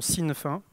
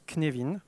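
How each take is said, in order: First: It is said in an anglicized way. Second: It is said in a Welsh-style way. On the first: This is how many people know the name. "Certains connaissent sous la prononciation Sinefin" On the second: This is how Welsh speakers say the name. "pour les personnes qui connaissent le gallois, ça se prononce Cnevin"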